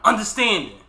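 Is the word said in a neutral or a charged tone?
charged. It is said with a loaded, charged inflection.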